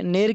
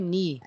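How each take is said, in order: First: The syllable is said with an 'e' vowel. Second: The syllable is said with an 'ee' vowel. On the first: The speaker calls it wrong. "नेर की आवाज नहीं होगी" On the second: The speaker calls it right.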